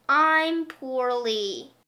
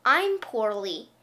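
First: Slow, stretched, pitiful moan; milk the word poorly, slowly; drawn-out whine. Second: Said in the usual way.

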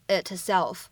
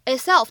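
First: "itself" with the t clearly released; over-articulated t. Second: "itself" with the t only mouthed, unreleased; incomplete plosion. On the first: Teacher shows what is not needed, "itself" with a fully released t. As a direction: sound out the t in "itself" before "self". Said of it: "你不需要读成". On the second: Teacher shows the last word's trick, "itself" with a silent held t. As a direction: say "itself" without sounding the t. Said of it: "我们存在一个不完全爆破". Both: Shown as a demonstration.

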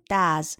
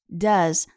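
First: "does" with a wide Chinese "da" vowel; mispronounced "does", vowel too open; wrong vowel in does. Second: "does" with a short, smaller-mouthed "uh"; short vowel in does. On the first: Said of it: "不要发成我们中文中的大". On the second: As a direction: say "does" with a short vowel, less open than Chinese 啊. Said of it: "口型要比我们汉语中的". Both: Shown as a demonstration.

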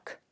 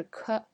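First: K as a voiceless click of sound; just the release of k; bare consonant. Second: K voiced as "kuh"; k as a full syllable, kuh; k with vowel. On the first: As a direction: say k with no vowel. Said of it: "只发了k". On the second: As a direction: add a schwa after k. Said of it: "而不是k". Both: Shown as a demonstration.

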